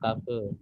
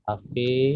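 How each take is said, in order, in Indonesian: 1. Vokal akhirnya pendek. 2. Vokal akhirnya panjang. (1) "bukan kafe" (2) "ingat E-nya double berarti panjang"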